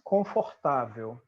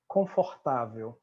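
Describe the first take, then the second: First: It is said with a Brazilian Portuguese accent. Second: It is said with a Brazilian Portuguese accent.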